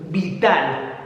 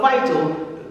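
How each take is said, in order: First: It is said with a Spanish-sounding pronunciation. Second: It is said with an English-sounding pronunciation. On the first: The speaker calls it right. "so it sounds that much more Spanish" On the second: The speaker calls it wrong. "Not vital"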